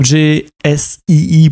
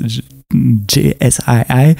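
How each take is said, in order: First: The letters are spelled with French letter names. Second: The letters are spelled with English letter names.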